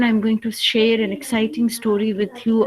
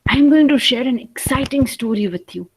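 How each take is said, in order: First: The voice sounds flat and sad. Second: The voice sounds lively and excited. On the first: The speaker calls it wrong. "this sounds like a very sad story" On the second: The speaker calls it right. "It sounds exciting"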